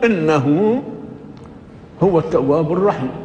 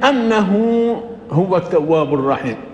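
First: The first word begins with an 'i' vowel. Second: The first word begins with an 'a' vowel. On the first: "قراءة الجمهور بكسر همزة إن" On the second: "في فتح همزة أن"

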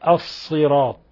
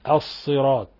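Both takes have the same delivery.

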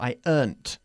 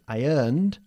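First: The word ends with a t sound. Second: The word ends with a d sound. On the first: "Con una t" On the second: "con ed"

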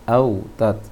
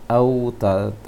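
Both takes have the same delivery.

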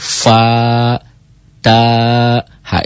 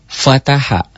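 First: Each syllable is said separately, spelled out. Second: The syllables are run together as one word. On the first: The speaker calls it right. "harus dibacanya dieja" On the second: The speaker calls it wrong. "Itu kan dibaca fataha"

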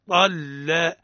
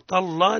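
First: The l sound is light and thin. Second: The l sound is heavy and thick. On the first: The speaker calls it right. "ولا من اسم موصول مرقق، طلا طلا" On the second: The speaker calls it wrong. "لا نقول طلا"

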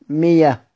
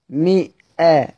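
First: A y sound replaces the glottal stop. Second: A glottal stop follows the i vowel. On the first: This is how it is read when pausing in Hamza's reading. "كيف أقرأ سيدنا حمزة؟ مية في الوقف" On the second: This is the reading that keeps the hamza. "هذه الهمزة ... مفتوحة بعد كسر"

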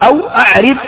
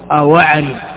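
First: The glottal stop before a'rib is pronounced separately. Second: The glottal stop is dropped, its vowel moved back. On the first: The speaker calls it wrong. "هذا غلط" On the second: The speaker calls it right. "والصواب أواعرب بنقل حركة الهمزة"

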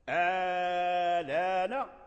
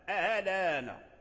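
First: The hamza becomes a long, drawn-out vowel. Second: The second hamza is softened, not fully pronounced. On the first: "فيها المد آلان" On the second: "وفيها تسهيل الهمزة آلان"

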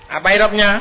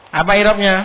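No difference in how they are said.

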